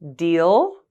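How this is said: The pitch rises at the end.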